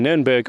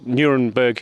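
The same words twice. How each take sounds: First: The name is pronounced with German sounds. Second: The name is pronounced with English sounds.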